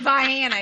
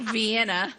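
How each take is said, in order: First: It is said the local Southern Illinois way. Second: It is said the way outsiders say it. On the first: This is how people there say the town's name. The speaker calls it right. "You say Vienna" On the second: This is not how people there say the town's name. The speaker calls it wrong. "You don't say Vienna"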